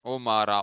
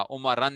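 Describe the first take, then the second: First: उमरा with an open long "aa", no "n"; ending without tanween. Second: उमरन closed off with an "an" sound; wrong tanween ending. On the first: Teacher showing the object case, उमरा ending in open "aa". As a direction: leave the end of उमरा open. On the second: Teacher warning against tanween, उमरन ending in "n". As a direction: add a final "n" to make उमरन. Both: Shown as a demonstration. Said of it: "उमरन नहीं पढ़ना इसको".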